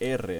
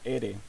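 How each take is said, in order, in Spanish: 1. La r es una trilla fuerte. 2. La r es un solo toque suave. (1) "se pronuncia R ... con eh, la fonética fuerte" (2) "no R"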